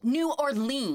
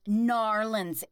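First: The name is said fully with every syllable. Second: The name is squeezed into two quick syllables. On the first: It is the speaker's own ordinary way of saying it. The speaker calls it right. "No, it's New Orleans" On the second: It imitates people trying to sound local. The speaker calls it wrong. "they're trying to pronounce it properly"

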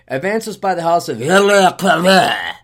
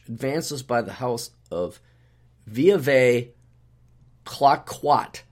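First: It is said in an exaggerated, slurred French accent. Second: It is said in a plain English accent. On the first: "the French would pronounce it, they just like slobber all over it" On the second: "here's how we would pronounce it with English"

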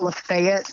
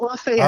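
First: It is said with the local Alabama pronunciation. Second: It is said with the common outside pronunciation. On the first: This is how the town's residents say it. The speaker calls it right. "up here we've got Lafayette" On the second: This is how outsiders would say it. The speaker calls it wrong. "Not Lafayette"

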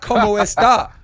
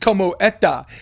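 First: The s sound in esta is pronounced. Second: The s sound in esta is dropped. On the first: "So it's not como esta" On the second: "you take the letter S"

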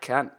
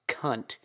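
First: It is said with a relaxed Australian accent. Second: It is said with a harsh American accent. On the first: It sounds like a friendly greeting. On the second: It sounds like an insult.

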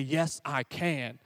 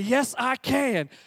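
First: It is said at a normal volume. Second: It is said louder.

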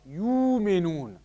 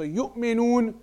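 First: The glottal stop is replaced by a w-like sound. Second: A glottal stop comes before the m.

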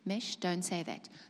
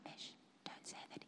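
First: It is said clearly at full loudness. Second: It is said very softly, almost faint. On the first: The inner voice is heard plainly. "because he spoke very clearly" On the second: The inner voice is nearly gone from being ignored. "Third time"

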